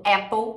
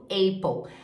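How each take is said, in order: First: "Apple" as "É-pou"; "Apple" with short open vowel; open first vowel. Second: "Apple" as "EI-pou"; closed first vowel. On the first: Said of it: "muita gente falando Apple". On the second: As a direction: say "Apple" with AY diphthong. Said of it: "e muita gente falando". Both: Shown as a demonstration.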